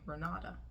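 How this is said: The name is said with an American accent. "American way"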